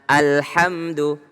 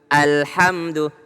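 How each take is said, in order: First: The opening vowel starts with a firm, pressed catch. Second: The opening vowel starts with a firm, pressed catch.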